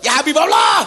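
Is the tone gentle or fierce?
fierce. It is said in a fierce, harsh tone.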